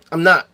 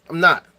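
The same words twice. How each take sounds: The two takes are said the same way.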